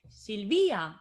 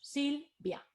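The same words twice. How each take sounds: First: The stress falls on the second syllable. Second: The stress falls on the first syllable. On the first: The speaker calls it wrong. "No decimos Silvia" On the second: The speaker calls it right. "decimos Silvia"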